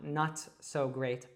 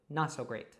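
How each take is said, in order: First: The T in not is fully released. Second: The T in not is a glottal stop. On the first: The speaker calls it wrong. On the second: The speaker calls it right. "that's a glottal T"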